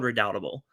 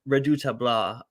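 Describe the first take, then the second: First: It is said with a plain English accent. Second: It is said with a French accent. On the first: "officially called" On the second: "I was trying to give it a French accent"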